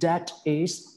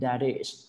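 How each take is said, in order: First: The two words are said separately, not linked. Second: The two words are linked into one smooth unit.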